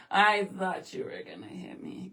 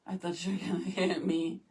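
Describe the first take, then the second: First: A full whisper, no voice at all; mock fright, whispered. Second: Softer, a hushed joking aside; a hint of pretend fright, softly; quiet mock fear. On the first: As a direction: whisper it like a guilty secret. Repeats the joke, whispered. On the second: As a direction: say it low, half to yourself. Joking she feared being hit.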